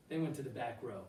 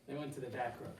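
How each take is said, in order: Both takes have the same delivery.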